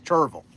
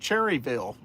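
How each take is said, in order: First: The name is squeezed into two syllables. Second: The name is said with three full syllables. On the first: This is how locals say it. The speaker calls it right. "it's Cherville" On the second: This is how outsiders say it. The speaker calls it wrong. "the newscasters from other parts ... will say"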